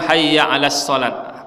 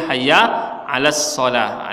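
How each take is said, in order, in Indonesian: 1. Kata terakhir berakhir dengan bunyi t. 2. Kata terakhir berakhir dengan bunyi h. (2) "tetap dibaca ha"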